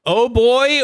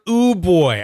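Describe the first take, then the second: First: The first word has an 'oh' vowel. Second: The first word has an 'ooh' vowel. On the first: "How do you pronounce that?" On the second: "apparently I got it horribly wrong"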